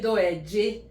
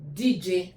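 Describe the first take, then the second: First: The greeting is said in its full form. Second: The greeting is said in a shortened form. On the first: This is how it is said in the speaker's home area. "In my place, we say doeje" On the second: This is how it is said in some other places. "they just say D J"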